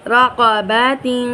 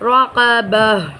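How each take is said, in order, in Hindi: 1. शब्द का अंत पूरे '-tin' से होता है। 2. शब्द का अंत एक ख़ामोश 'h' की आवाज़ से होता है।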